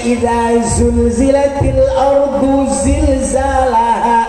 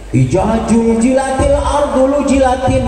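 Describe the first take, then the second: First: The letters are said with a z sound. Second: The letters are said with a j sound. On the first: The speaker calls it right. "banyak zai itu" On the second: The speaker calls it wrong. "dibaca jim semua"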